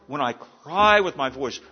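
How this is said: It is read with strong, pleading exclamation. The speaker calls it right. "read that in a different way, with a little more inflection"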